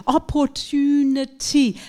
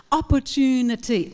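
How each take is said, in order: First: Slow "Opportunity." with a true T on the stressed syllable; careful slow demo. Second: Said in the usual way. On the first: Shown as a demonstration. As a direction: stretch it out and hit the "tu". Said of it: "now we have the stressed syllable". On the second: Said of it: "Word opportunity is a five-syllable word".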